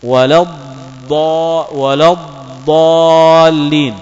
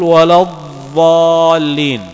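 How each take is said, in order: First: Slow ولا الضالين with emphatic d; slow الضالين, the right dad sound; correct heavy d. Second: Slow ولا الضالين with dh; slow الضالين as the mistake; wrong soft dh. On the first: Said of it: "الصواب". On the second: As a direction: draw out الضالين with the wrong dh sound. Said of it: "بالضاء". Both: Shown as a demonstration.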